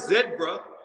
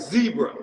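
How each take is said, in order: First: The word begins with a short zeh sound. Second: The word begins with a long zee sound. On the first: This is how British people say it. The speaker calls it wrong. "It's not a zebra" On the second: This is how the speaker says it. The speaker calls it right. "No, it's Z, like a zebra"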